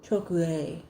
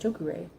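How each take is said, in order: First: The R is rolled, close to an L. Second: The R is an English-style R. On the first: "It's like a rolled R with an L" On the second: "I'm still English speaking, you know, Northern American"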